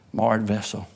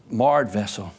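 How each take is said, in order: Both takes have the same delivery.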